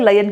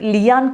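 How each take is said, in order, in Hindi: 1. पहला स्वर 'ay' जैसा सुनाई देता है। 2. पहला स्वर 'ee' जैसा सुनाई देता है। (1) "లయన్ కింద ప్రనౌన్స్ చేయాలంటే" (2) "లియాన్ కింద ఉంది కదా"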